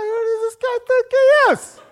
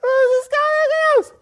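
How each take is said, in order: First: Much higher, louder indignant squeak with a laugh; laughing, high offended yelp at the prosecutor; high-pitched indignation. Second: Far higher, louder indignant squeal; squeaky outraged demo of an uptight voice; even higher indignation. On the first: Retold or imitated. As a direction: let your voice jump up with outrage. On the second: Shown as a demonstration. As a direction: push the voice as high as it goes, uptight. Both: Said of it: "your voice goes higher".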